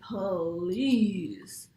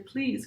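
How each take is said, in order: First: The word is stretched into two separate syllables. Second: The word is said naturally as one syllable. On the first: The speaker calls it wrong. "exaggerated modeling ... It's like two whole separate words, puh and lees" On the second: The speaker calls it right. "make sure you're modeling correctly, no baby talk"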